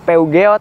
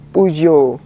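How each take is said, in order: First: The name is read out the way it is spelled. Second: The name is said with its French sounds. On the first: The speaker calls it wrong. "banyak orang yang mengira tuh bacaannya Peugeot" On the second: The speaker calls it right. "cara baca yang betul dari merek ini"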